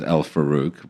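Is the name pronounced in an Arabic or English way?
English. The name is said in an anglicized way. This is how the owner usually says it. "I pronounce my name as"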